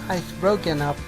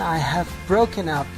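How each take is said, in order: First: The auxiliary verb is contracted. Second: The auxiliary verb is said in full. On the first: The matter sounds less important. The speaker calls it wrong. "It's not strong" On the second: The matter is very important to her. The speaker calls it right. "for her it's very important"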